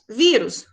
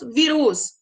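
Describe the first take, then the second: First: The stress is on the first syllable. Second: The stress is on the last syllable. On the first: The speaker calls it right. "paroxítona terminada em us" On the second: The speaker calls it wrong. "Se fosse oxítona"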